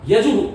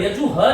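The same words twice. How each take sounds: First: यजुहु punched out louder, ending in "hu"; correct visarga. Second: यजु ह ending in "ha" instead of "hu"; wrong visarga. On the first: Teacher corrects the error, यजुहु as a firm "yajuhu". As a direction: echo the u firmly in यजुहु. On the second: Teacher shows the error, यजु ह as "yaju-ha". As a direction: tack a plain "ha" onto यजु ह. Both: Shown as a demonstration. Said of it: "यजु ह नहीं है".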